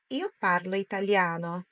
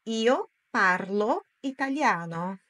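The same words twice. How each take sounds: First: Said in the usual way. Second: Slow, word-by-word delivery; slow model sentence. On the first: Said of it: "Agora é a sua vez". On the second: Shown as a demonstration. Teacher models Italian for learners to repeat, slowly. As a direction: say it slowly, pausing between words. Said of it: "Agora é a sua vez em voz alta".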